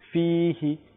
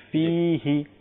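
No difference in how they are said.

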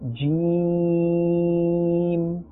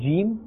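First: The vowel sound is stretched and prolonged. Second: The vowel sound is kept short. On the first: The speaker calls it right. "we will say jeem" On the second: The speaker calls it wrong. "Instead of saying jeem"

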